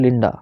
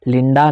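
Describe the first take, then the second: First: The final vowel is short and reduced. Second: The final vowel is full and long. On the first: The speaker calls it right. "मैं बोल रहा हूँ लिंडा" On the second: The speaker calls it wrong. "लिंडा नहीं बोल रहा हूँ मैं"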